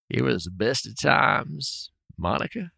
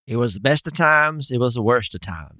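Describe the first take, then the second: First: Very slow, soft southern drawl; Bill Clinton's slow Arkansas drawl; Bill Clinton impression. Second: Put-on American accent. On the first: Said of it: "He's so close to Bill Clinton". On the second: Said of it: "That's a little southern twang".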